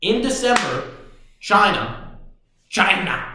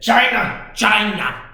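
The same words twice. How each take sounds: First: Said in the usual way. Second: Each China punched higher and louder; emphatic China. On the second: Shown as a demonstration. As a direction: hit both China hard, higher and louder. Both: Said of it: "say it".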